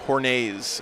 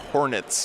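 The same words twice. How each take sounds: First: The word is pronounced in a French way. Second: The word is pronounced in plain English.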